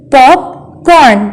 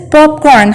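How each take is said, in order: First: "Popcorn" as pop, corn, with a gap; split into syllables. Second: Said in the usual way. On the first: Shown as a demonstration. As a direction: break "Popcorn" into two beats. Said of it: "There are two syllables". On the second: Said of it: "How many syllables are there".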